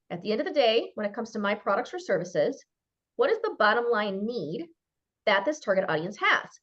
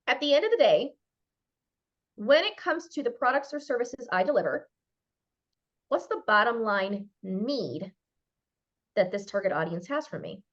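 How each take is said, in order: First: Said in the usual way. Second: Slow, deliberate reading of the question; measured dictation pace; question read out slowly. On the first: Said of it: "ask why up to five times". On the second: Shown as a demonstration. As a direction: spell out each part of the question. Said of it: "write this question down".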